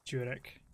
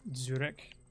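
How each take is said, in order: First: It begins with a J sound. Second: It begins with a DZ sound. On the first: "More like a J" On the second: "like like D D Z, that kind of pronunciation"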